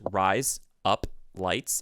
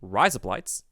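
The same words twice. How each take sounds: First: The phrase is said at a normal pace. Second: The phrase is said quickly, run together. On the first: It is just the three separate words. "If you say the three words in English" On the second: It sounds like the words razor blades. "and you say it quickly"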